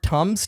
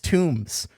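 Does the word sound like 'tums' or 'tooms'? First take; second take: tums; tooms. First: The vowel is short, as in 'cup'. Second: The vowel is long, as in 'tomb'. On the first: The speaker calls it right. "the word tums" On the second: The speaker calls it wrong. "he pronounces the word tums tombs"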